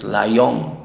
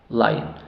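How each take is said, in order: First: The second vowel keeps a full, unreduced o sound. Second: The second vowel is reduced to a weak schwa. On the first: The speaker calls it wrong. "No decimos lion, tampoco, no" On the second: The speaker calls it right. "Reducido a un schwa, esa O"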